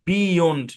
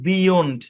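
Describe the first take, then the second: No difference in how they are said.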